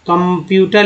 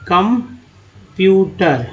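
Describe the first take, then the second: First: Said in the usual way. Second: computer very slow, with gaps between parts; syllable by syllable. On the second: Shown as a demonstration. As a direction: pull computer apart into drawn-out syllables. Teacher splits word for learners.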